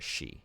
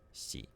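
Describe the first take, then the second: First: It begins with a plain English 'sh' sound. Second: It begins with an unfamiliar, non-English hissing sound. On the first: The speaker calls it wrong. "Instead of like a she" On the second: The speaker calls it right. "that was like a cool new sound to learn"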